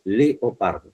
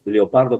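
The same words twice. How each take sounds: First: Leopardo slow, le and o kept as separate syllables; careful syllable split. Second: Leopardo with leo slurred into one syllable; everyday run-together pronunciation. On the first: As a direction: spell out le-o-par-do slowly. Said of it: "es leopardo". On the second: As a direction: say leopardo casually, merging the e and o. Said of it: "digamos leopardo como si fuera Leo". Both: Shown as a demonstration.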